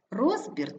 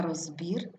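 First: РОЗбір, first syllable stressed. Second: РозБІР, ending stressed; stress on last syllable. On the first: Teacher showing double stress, stress on РОЗ. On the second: Teacher showing double stress, stress on БІР. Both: Shown as a demonstration. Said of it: "слова із подвійним наголосом".

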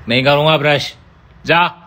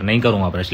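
First: Defiant refusal. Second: Said in the usual way. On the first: Acted. Stubborn refusal to brush teeth.

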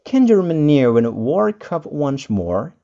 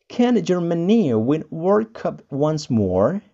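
First: Said in the usual way. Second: Can Germany win World Cup once more? said slower; a slower, careful second take; slower repeat. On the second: Shown as a demonstration. Teacher repeats the sentence slowly for learners. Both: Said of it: "ada contohnya".

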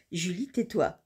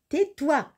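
First: Said in the usual way. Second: High, emphatic order to oneself; insistent self-scolding. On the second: Real, not acted. Julie telling herself to stop joking, insistent. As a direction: cut yourself off, higher and firmer.

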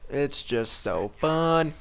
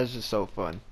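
First: "It's just so fun" stretched out slowly in mock delight; sarcastic drawl. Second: Said in the usual way. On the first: Real, not acted. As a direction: drag it out as dripping sarcasm. Sarcastic repetition.

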